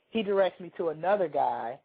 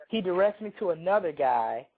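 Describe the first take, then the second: No difference in how they are said.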